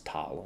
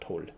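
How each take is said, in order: First: The syllable has an open 'ah' vowel. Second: The syllable has a rounded 'oh' vowel. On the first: The speaker calls it right. "I think it's tal" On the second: The speaker calls it wrong. "not tol"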